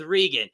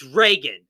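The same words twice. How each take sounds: First: Reagan said REE-gun, with a long ee; mispronounced name. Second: Reagan said RAY-gun, with a long ay; corrected pronunciation. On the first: Host quoting the YouTuber's mistake, Reagan said REE-gun. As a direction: give Reagan an ee in the first syllable. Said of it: "You pronounce her name as". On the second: Host correcting the YouTuber, Reagan said RAY-gun. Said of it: "It's Reagan". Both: Shown as a demonstration.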